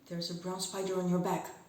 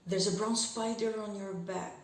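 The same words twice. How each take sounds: First: It starts slow and speeds up throughout. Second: It starts fast and slows down throughout. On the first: "Now making accelerando"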